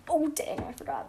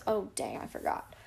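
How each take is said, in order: First: High, sarcastic "Oh, dang". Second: Sarcastic. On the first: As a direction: roll your eyes at "I forgot". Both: Shown as a demonstration. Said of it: "That sounded very sarcastic".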